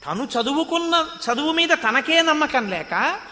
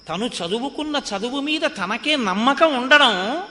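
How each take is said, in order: First: మీద pitched higher with a rising tune; మీద rising high, లేక stressed. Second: ఉండడం lifted with a rising tune; ఉండడం rising, held; stress on ఉండడం. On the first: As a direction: raise మీద sharply against the first take. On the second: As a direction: lean on ఉండడం as the point. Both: Shown as a demonstration. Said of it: "contrast of faith and no faith".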